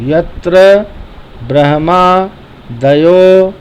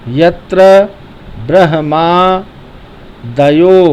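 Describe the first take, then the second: No difference in how they are said.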